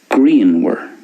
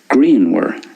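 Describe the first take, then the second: First: The middle consonant is a W sound. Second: The middle consonant is a W sound.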